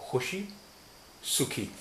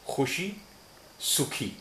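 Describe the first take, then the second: Both takes have the same delivery.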